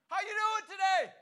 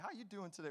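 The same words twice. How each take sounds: First: It is yelled loudly across the house. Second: It is said quietly, in a calm voice.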